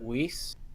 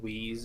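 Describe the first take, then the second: First: The name ends with a hissing s sound. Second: The name ends with a buzzing z sound. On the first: This is how the owner first said the name. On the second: This is how most other people said the name.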